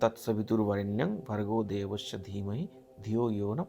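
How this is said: The words run together in one continuous flow. "আমি simple ওয়েতে পড়লাম।"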